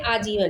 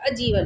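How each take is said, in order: First: आजीवन with a long opening "aa"; correct pronunciation. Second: अजीवन with a short opening "a"; short-vowel misspelling. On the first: Teacher showing how people rightly say it, correct pronunciation of आजीवन. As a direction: say आजीवन, first vowel held long. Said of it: "सही बोलेंगे". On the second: Teacher showing the word with short vowel, misspelt pronunciation of अजीवन. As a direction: say अजीवन, clipping the first vowel to "uh". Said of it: "छोटा आ लगा के". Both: Shown as a demonstration.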